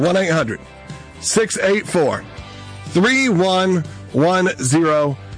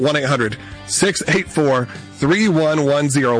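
First: The number is said slowly and deliberately. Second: The number is said at normal, faster speed.

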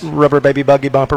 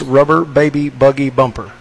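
First: It is said fast. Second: It is said at a normal, slower pace.

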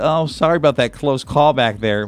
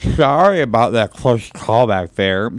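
First: It is said in a clear, normal voice. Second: It is said in a slurred, drunken voice.

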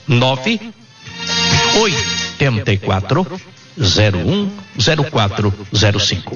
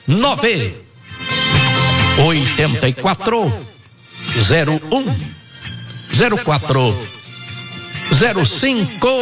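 First: The number is said at normal speed. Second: The number is said very slowly.

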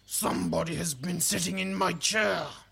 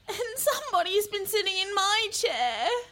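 First: It is bellowed in a big growly voice. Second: It is whined in a complaining voice.

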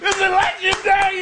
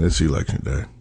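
First: It is said with high, excited energy. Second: It is said with low, flat energy.

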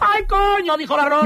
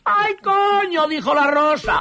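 First: It is said at a faster pace. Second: It is said at a normal pace.

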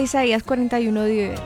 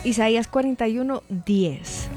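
First: It is said at normal speed. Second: It is said slowly.

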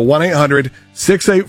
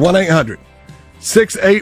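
First: The number is said at normal speed. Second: The number is said slowly.

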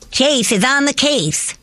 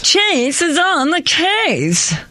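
First: It is said in a normal voice. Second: It is said in a Snagglepuss-like voice.

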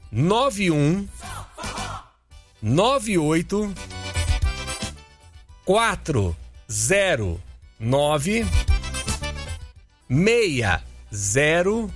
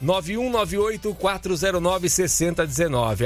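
First: The number is read slowly. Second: The number is read fast.

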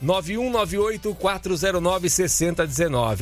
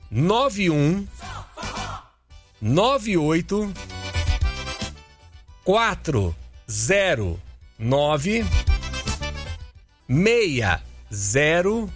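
First: The number is said fast. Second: The number is said slowly.

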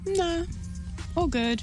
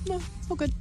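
First: It is said in a flirty tone. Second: It is said in an angry tone.

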